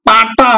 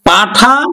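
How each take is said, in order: First: The middle consonant has no aspiration. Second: The middle consonant has a breathy aspiration. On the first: "মহাপ্রাণটা অল্প প্রাণ" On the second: "ঠটা ট হয়ে গেছে"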